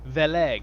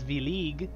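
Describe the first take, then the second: First: The e vowels are short. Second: An e vowel is long, like 'ee'. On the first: "I think that's how you say it" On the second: "with a long e"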